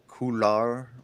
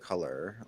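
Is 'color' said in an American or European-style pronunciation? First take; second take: European; American. First: It is said with a European-style pronunciation. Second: It is said with a plain American pronunciation.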